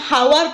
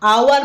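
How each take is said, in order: First: The word begins with an h sound. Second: The word begins with a vowel sound. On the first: The speaker calls it wrong. "ହାୱାର ପଢୁନବାକୁ" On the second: The speaker calls it right. "ଆୱାର ବୋଲି ପଢିଥାଉ। ଏଚ୍ ଏଠି ହଉଛି silent."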